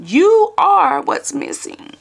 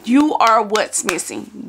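First: Mock preacher climax. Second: Slow, drawn-out preacher delivery; imitating the pastor preaching. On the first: Imitating Pastor Torrey hitting the sermon's peak, slow and rising. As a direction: land the sermon line like a Sunday climax. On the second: Retelling Pastor Torrey's sermon to viewers, slow preacher cadence. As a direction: lean into the sermon line slowly. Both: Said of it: "That's what he said".

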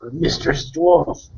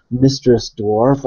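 First: Slow, higher Mistress Dwarf; in-character address. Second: Mistress Dwarf said slowly and distinctly; clearly repeated. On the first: Warrior priest addressing the dwarf, slow in-character voice. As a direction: draw out Mistress Dwarf, pitched up. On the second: Warrior priest repeating himself politely to the dwarf, clearly enunciated. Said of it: "I'll say it more clearly". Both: Acted.

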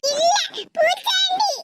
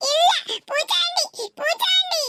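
First: Put-on high, slow little-child voice; a small boy refusing his aunt, drawn out; toddler voice. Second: Put-on high little-child voice, insisting; a small child repeating it stubbornly; toddler voice. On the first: Toddler grandson calling his aunt a bogeyman, high and childish. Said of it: "நான் பூச்சாண்டியா?". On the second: Toddler grandson insisting his aunt is a bogeyman, high childish voice. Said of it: "பிஞ்சு மனசுல".

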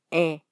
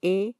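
First: E as an open "eh" sound; a more open, lax E. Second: E as a close, tense "ee"-like German vowel, as in gehen; a clear closed E; pronounced E. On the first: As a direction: say E open, as in English "bet". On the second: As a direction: say E tense, like the letter name. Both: Shown as a demonstration. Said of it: "La E pronunciada es".

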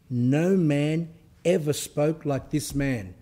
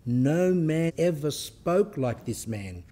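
First: Slow, weighty reading with the stress on "ever"; slow emphatic quote. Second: Slow, with the stress on "No" and a falling tune; slow emphatic quote repeated. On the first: Preacher telling his listeners to hear this, slow and weighty. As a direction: linger on "ever" and stretch the final "man". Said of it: "listen to this one". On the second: Preacher setting the quote against the miracles version, slow and emphatic. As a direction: press on "No" and slow down through the line. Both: Shown as a demonstration.

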